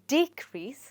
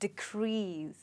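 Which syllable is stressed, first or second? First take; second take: first; second. First: The stress is on the first syllable. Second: The stress is on the second syllable. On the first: It is a noun meaning a fall. "अगर ये word noun है तो इसमें जो stress है वो रहेगा first syllable पर" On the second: It is a verb meaning to fall. "इसका जो स्ट्रेस है वो हो जाएगा सेकंड सिलेबल पर"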